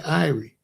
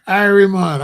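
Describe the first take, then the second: First: Said in the usual way. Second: Jamaican accent, higher and louder; put-on Jamaican accent. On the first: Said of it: "I just say". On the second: Shown as a demonstration. Vlogger showing viewers how he doesn't talk, mock Jamaican accent. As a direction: exclaim it in a hammed-up Jamaican accent. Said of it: "I don't be like".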